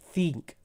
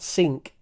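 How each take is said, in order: First: The word begins with a th sound. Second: The word begins with an s sound. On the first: The speaker calls it right. "just like the Spanish cerveza, ce" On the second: The speaker calls it wrong. "But it's not sink, not s"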